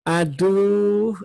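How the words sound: It is said in a soft, gentle voice. Something is lovely, good or noble. "kalau suaranya dilemah lembut"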